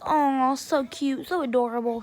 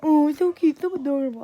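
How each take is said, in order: First: Teasing coo. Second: Put-on babyish parroting, louder at the start; mocking mimicry. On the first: Retold or imitated. Teasing coo, then mimicked back. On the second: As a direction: throw the coo back in a mock baby voice. He mimics her coo back.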